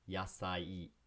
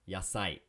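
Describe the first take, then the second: First: It is said slowly and carefully. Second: It is said quickly, sounds merged.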